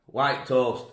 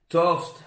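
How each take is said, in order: First: White toast with white stressed. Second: Toast, said higher and louder; announcing toast. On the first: Telling viewers his toast choice, white stressed. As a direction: lean on the word white. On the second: Showing his breakfast to viewers, toast said lifted. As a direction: present toast with a lift. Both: Shown as a demonstration. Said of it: "presenting breakfast items".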